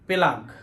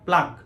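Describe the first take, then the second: First: A vowel splits the p and l sounds. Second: The p and l sounds run together. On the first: The speaker calls it wrong. "আসলে এটা পেলাগ না" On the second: The speaker calls it right. "এটা হলো প্লাগ"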